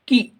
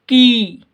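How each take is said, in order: First: The vowel is held very briefly. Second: The vowel is held noticeably longer. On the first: "ध्वनि की जो timing है वो बहुत कम है" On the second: "थोड़ी सी ज़्यादा टाइम में"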